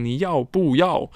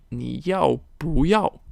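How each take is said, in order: First: 你要不要 with 不 falling in fourth tone; unchanged fourth-tone 不. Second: 你要不要 with 不 rising in second tone. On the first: Teacher showing what not to say, 你要不要 with falling fourth-tone 不. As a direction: drop the pitch on 不 in 你要不要. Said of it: "there is a fourth tone coming after it". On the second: Teacher showing the tone change, 你要不要 with rising second-tone 不. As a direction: lift the pitch on 不 before the final 要 in 你要不要. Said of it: "Change it to the second tone". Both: Shown as a demonstration.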